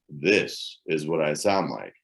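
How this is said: The voice is deep, rumbling from the belly. "when I speak from the deep rumble of my money-making belly"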